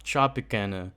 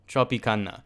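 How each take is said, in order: First: Tropicana with the flat "can" vowel, trop-ih-CAN-uh; trying a pronunciation. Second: Tropicana with open Spanish vowels, tro-pee-KAH-na. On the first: Vlogger testing how to say Tropicana, flat American "a". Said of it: "How do you even say that?". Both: Shown as a demonstration.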